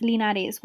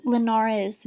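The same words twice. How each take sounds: First: Linares with a tapped Spanish r, lee-NAH-res; Spanish pronunciation. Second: Said in the usual way. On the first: Shown as a demonstration. Reviewer slips into Spanish saying the consulate wife's name. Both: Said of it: "Why am I saying with an accent?".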